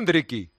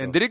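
First: The name ends with an added ee vowel. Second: The name ends on the k sound.

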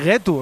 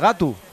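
First: The first vowel is a front e. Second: The first vowel is an open a. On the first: This is the local Lena form. "Y getu, en vez de gatu" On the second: This is the form used elsewhere. "en vez de gatu"

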